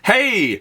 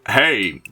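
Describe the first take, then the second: First: The voice is light and plain, not gruff. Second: The voice is rough and gruff. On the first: The speaker calls it wrong. "maybe he doesn't really sound like that" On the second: The speaker calls it right. "he's probably has like a more like gruffier voice"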